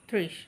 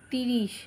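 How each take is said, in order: First: The t and r form one joined cluster. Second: A short i vowel separates the t and r. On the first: The speaker calls it right. "তাই বললাম তিনে শূন্য ত্রিশ তয় রফলা" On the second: The speaker calls it wrong. "তোমরা তিরিশ এইভাবে উচ্চারণ করো না"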